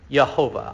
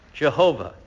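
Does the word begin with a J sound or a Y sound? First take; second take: Y sound; J sound. First: The word begins with a Y sound. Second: The word begins with a J sound. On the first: The speaker calls it right. "but I'll say Yehovah" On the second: The speaker calls it wrong. "I don't like to say Jehovah"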